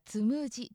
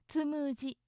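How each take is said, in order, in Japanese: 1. この語にはアクセントがあります。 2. この語は平板型です。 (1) "標準語ではつむじですけれども" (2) "関西流平板型だからつむじですね"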